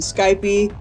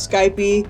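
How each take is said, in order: First: It is said the way the spelling suggests. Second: It is said the way the spelling suggests.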